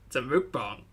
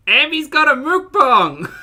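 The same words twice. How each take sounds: First: Said in the usual way. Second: High, loud, drawn-out announcement; excited shout. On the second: Real, not acted. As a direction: shout the news with glee.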